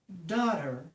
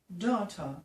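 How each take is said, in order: First: It is said with an American accent. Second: It is said with a British accent.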